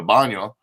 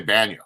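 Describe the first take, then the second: First: BAÑO with an open 'ah', as 'BAH-nyo'; Spanish pronunciation. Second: BAÑO with a short English a; anglicized pronunciation. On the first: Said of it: "saying bathroom in Spanish". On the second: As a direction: say BAÑO as 'BAN-yo'. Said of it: "a lot of people say". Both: Shown as a demonstration.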